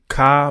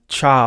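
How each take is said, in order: First: It begins with a hard k sound. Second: It begins with a ch sound. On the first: This is the older habitual way of saying it. "I was pronouncing the tent as a ka with like a K" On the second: This is what the ancestors are now believed to have said. "we think it's a cha, like C H"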